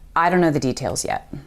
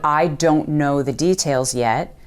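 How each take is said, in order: First: The first words blur together in a reduced form. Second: Each word is said fully and separately. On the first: "you'll hear us say" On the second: "Instead of"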